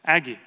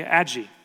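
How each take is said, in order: First: Aggie said as "AG-ee"; hard g in Aggie, as in bag; hard-g pronunciation. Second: Aggie said as "ADJ-ee"; soft-g mispronunciation. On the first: Toddler's other answer to her name, Aggie with hard g. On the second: Toddler answering her name, Aggie with soft g. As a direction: make the g in Aggie a j sound. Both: Retold or imitated. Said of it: "she'll say".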